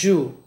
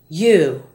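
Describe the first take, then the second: First: The word begins with a J sound. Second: The word begins with a Y sound. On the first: The speaker calls it wrong. "not you" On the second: The speaker calls it right. "Other Y words are you"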